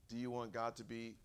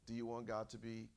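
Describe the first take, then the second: No difference in how they are said.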